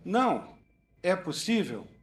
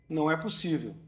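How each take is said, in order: First: It is said with a pause after não. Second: It is said without a pause after não.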